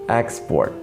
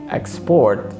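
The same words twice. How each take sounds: First: The stress is on the first syllable. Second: The stress is on the second syllable. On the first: It names the business of selling goods abroad. "the practice of business, of selling goods" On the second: It is the action of selling goods abroad. "export means to sell goods to another place"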